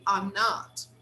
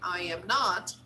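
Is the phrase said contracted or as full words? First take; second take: contracted; full words. First: The first two words merge into one syllable. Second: Each word is said fully and separately. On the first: "we say" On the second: "instead of saying"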